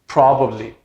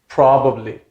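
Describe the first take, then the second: No difference in how they are said.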